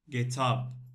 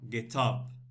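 First: The stress falls on the word up. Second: The same.

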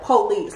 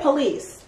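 First: The first vowel is a clear, full 'o', sounding like 'po-lice'. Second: The first vowel is reduced, sounding like 'pa-lice'. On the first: "they really, like, enunciate the O" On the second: "like me, I say police"

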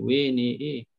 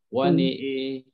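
First: The waw, nun and hamzah vowels lean toward 'e'. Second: The nun and hamzah vowels lean toward 'e'. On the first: The speaker calls it wrong. "Jangan pula tambah sampai waw... Kalau tambah dia bunyi lain lagi lah" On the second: The speaker calls it right. "khalaf dia dua-dua nun dengan hamzah, dia imalah"

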